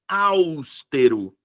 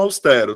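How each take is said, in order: First: The stress falls on another syllable. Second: The stress falls on the second-to-last syllable. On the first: The speaker calls it wrong. "Tem uma galera que pronuncia austero" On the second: The speaker calls it right. "sílaba tônica é a penúltima sílaba, então é paroxítona"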